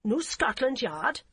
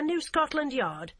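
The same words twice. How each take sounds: First: Put-on slow, rising German-accented repeat; German-accented query. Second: Said in the usual way. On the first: Policewoman repeating it back, puzzled, in a heavy German accent. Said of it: "the woman repeated".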